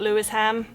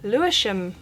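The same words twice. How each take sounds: First: The S and H are said separately. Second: The S and H merge into one sound. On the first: The speaker calls it wrong. "this is not Lewisham" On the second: The speaker calls it right. "when they put the S and the H together"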